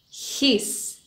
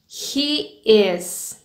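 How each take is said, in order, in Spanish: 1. Se dice como una sílaba contraída. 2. Se dice como dos palabras separadas.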